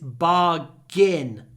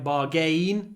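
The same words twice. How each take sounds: First: The last syllable is said like 'gin'. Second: The last syllable is said like 'gain'. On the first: The speaker calls it right. "Why is A I N pronounced in?" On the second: The speaker calls it wrong. "It looks like bargain"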